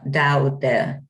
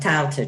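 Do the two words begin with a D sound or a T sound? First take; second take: D sound; T sound. First: The words begin with a D sound. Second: The words begin with a T sound. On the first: "pronounced with a D" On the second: "rather than Tao Te Ching"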